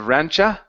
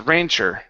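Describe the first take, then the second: First: The word ends in an 'uh' sound without R. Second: The word ends in an 'er' sound with R. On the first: The speaker calls it wrong. "Instead of rancha" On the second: The speaker calls it right. "it's rancher"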